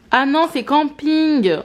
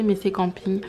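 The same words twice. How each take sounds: First: Slow, louder, higher "Ah non, c'est camping"; catching her own mistake out loud; surprised realization. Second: Said in the usual way. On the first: Real, not acted. To viewers, realizing she's watching Camping, surprised.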